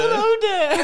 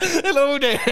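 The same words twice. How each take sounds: First: Much higher, louder laughing Yoda squeak; mock Yoda through laughter. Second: Much higher, louder squeaky Yoda greeting; mock Yoda. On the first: Co-host mocks the Yoda impression, squeaky and laughing. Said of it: "That's what Yoda says". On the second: Co-host repeats the joke Yoda greeting, much higher. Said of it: "Or doing".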